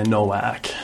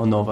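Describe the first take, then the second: First: The name is said with a nasal American pronunciation. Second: The name is said with an Italian pronunciation. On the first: This is how the name is said in the speaker's home country. "È terribile perché è un noto nasale" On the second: This is how the name is said in Italy. "Io onestamente qua dico Novak"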